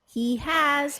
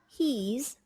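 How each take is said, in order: First: Both words are said in full. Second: The verb is contracted onto the subject.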